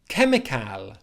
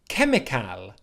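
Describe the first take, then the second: Both takes have the same delivery.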